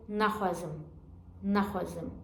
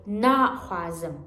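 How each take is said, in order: First: "naxwazim" with a clipped short first A. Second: Slow "naxwazim", first syllable long and stressed. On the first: Retold or imitated. Teacher imitating students' mistake, short first syllable in "naxwazim". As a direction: cut the "na" of "naxwazim" short, softer. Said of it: "many of our students pronounce like". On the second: Shown as a demonstration. Teacher correcting students, long stressed first syllable in "naxwazim". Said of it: "Stress it in the first".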